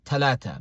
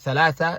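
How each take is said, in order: First: The word is said with 't' sounds. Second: The word is said with 'th' sounds. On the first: "they'll say ta" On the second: "in the place of tha"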